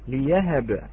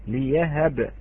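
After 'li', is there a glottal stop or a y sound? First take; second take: y sound; y sound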